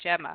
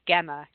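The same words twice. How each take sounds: First: The name starts with a soft J sound. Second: The name starts with a hard G sound. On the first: The speaker calls it right. "instead of a soft" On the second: The speaker calls it wrong. "they pronounce it with a hard G"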